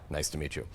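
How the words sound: It is said in a brisk, businesslike way. The speaker wants to get down to business. "very businesslike"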